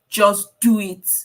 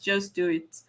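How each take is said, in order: First: It is said in a forceful, intense voice. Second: It is said in a small, gentle voice. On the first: It feels threatening. "a scary looking" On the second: It feels cute and harmless. "like this tiny cute fonts"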